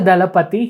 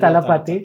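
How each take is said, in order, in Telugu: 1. తెలుగు పద్ధతిలో, 'd' శబ్దంతో అంటారు. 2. తమిళ పద్ధతిలో, 'th' శబ్దంతో అంటారు. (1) "తెలుగులో దళపతి" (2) "తమిళ్లో తలపతి"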